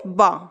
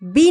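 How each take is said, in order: First: It is said as a short buh sound. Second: It is said as the letter name bee. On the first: The speaker calls it right. "बी नहीं, बा के उच्चारण के नियम" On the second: The speaker calls it wrong. "बी नहीं"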